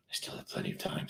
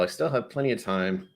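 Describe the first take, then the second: First: Hushed, voiceless aside; whispered self-reassurance. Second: Said in the usual way. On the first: Real, not acted. Streamer reassuring himself about finishing the drink, whispered. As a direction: whisper it privately to yourself.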